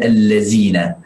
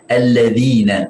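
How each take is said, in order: First: The middle consonant is a plain 'z' sound. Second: The middle consonant is a soft 'th' sound. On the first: The speaker calls it wrong. "bukan allazina" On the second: The speaker calls it right. "harus kita baca alladzina"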